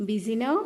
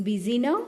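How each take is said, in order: The two takes are said the same way.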